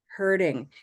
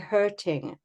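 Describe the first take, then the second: First: The middle consonant is a soft d-like sound. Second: The middle consonant is a crisp t sound. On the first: "But in North American English, it's hurting" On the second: "if you speak British English or a Commonwealth English, you'll say hurting with a t sound"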